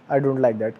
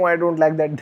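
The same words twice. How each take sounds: First: The voice sounds calm and steady. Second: The voice sounds agitated and defensive. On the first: The speaker sets a boundary with confidence. The speaker calls it right. "calm facial voice, you just have to say it like this" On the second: The speaker comes across as insecure. The speaker calls it wrong. "Then you will seem like an insecure dude"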